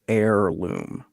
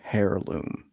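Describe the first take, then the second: First: The word starts with a vowel, h silent. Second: The word starts with an audible h sound. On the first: "Amerikanskis say heirloom" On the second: "Canadians pronounce the H"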